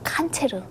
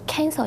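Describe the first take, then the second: First: It is said with a Russian-style pronunciation. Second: It is said with an English-style pronunciation. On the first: This is how it was learned in North Korea. "우리는 칸체르" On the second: This is how it is said in South Korea. "여기서 캔서 이러면"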